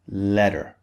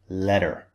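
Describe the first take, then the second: First: The middle consonant is a soft D-like sound. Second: The middle consonant is a soft D-like sound.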